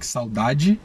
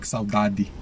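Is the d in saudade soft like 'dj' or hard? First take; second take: soft; hard. First: It has a soft Rio-style 'dj' sound. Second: It has a hard Northeastern D sound.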